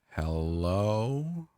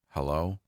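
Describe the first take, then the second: First: It is said more slowly. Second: It is said at a normal pace.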